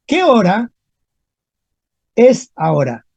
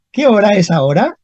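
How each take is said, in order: First: Teacher dictating "¿Qué hora ... es ahora?" in two parts; broken into pieces. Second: Said in the usual way. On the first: Shown as a demonstration. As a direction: pause clearly between "hora" and "es ahora". Teacher corrects, phrase in two pieces.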